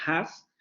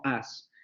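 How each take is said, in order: First: Said in the usual way. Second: "as" for "has", no h sound at all; h dropped. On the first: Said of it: "no se van a pronunciar como has". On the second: Shown as a demonstration. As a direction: drop the h, just "as". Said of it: "se va a pronunciar como as". ("as" sin la h inicial)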